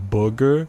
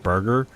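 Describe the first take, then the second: First: "booger" for burger, with no R sound; dropped R. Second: Said in the usual way. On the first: Shown as a demonstration. Streamer recalling childhood speech trouble, "booger" with no R. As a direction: turn burger into "booger", losing the R. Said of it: "couldn't say the R and I would say". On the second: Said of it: "used to not be able to say R words".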